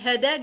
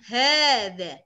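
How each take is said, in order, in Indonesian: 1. Vokal pertama diucapkan pendek. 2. Vokal pertama ditarik panjang. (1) "Kalau kita biasanya hada gitu" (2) "Padahal ini agak ada panjangnya"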